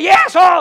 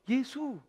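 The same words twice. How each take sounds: First: It is called out much louder. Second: It is said at a normal, softer volume.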